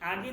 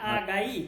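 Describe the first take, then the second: First: The word ends with a short i sound. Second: The word ends with an ai sound. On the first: The speaker calls it wrong. "আগি না" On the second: The speaker calls it right.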